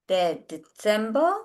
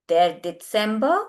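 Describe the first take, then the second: The two takes are said the same way.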